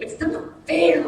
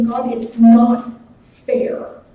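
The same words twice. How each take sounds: First: Put-on a kid's sulky it's not fair; childish whine. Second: Put-on drawn-out, slow childish whine; whiny child complaint. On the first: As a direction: mimic a pouting eight-year-old. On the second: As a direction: whine it slowly like a sulking kid. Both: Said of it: "like my eight-year-old children do".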